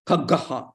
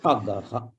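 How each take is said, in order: First: The breathy aspiration carries over onto the ga. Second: Only kha is breathy; ga is plain. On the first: The speaker calls it wrong. "you're entering that Mahaprana into ga also. That will not be correct" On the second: The speaker calls it right. "when you say kha, you just stress kha. Then leave it"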